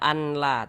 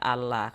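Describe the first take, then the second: First: The n is pronounced separately before the l. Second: The n merges into the l without nasal hum. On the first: The speaker calls it wrong. "Jangan dibaca anla" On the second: The speaker calls it right. "tapi dibaca Allah"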